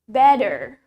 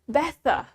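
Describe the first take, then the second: First: The middle consonant sounds like a d. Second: The middle consonant is a clear t. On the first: "In American accent, we say it" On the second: "in British English, we say it ... Tetap T"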